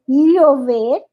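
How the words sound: The ll sounds like a clear double l. "O panamenho e boliviano é"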